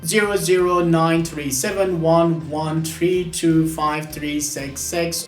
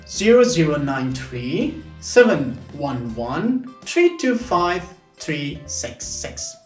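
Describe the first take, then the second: First: The digits run on without grouping pauses. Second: The digits come in groups separated by pauses. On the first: The digits are just a random string. "these random" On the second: The digits are grouped like a phone number. "It's easier to do chunking"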